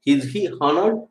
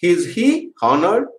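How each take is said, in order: First: Said in the usual way. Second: Each word drawn out, rising at the end; slow dictation. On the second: Shown as a demonstration. Teacher dictating a question to students, very slowly. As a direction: spell out "Is he honored?" word by word so students can write. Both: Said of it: "teacher repeats question".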